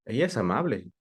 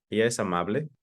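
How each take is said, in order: First: "¿Ella es amable?" falling from "Ella"; statement question, falling end; confirming fall. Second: "¿Ella es amable?" rising on "Ella" and up at the end; open question rise. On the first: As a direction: ask "¿Ella es amable?" just to confirm, voice dropping. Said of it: "solo quiero confirmar". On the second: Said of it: "Una pregunta en general". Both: Shown as a demonstration.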